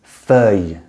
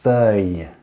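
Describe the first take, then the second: Both takes have the same delivery.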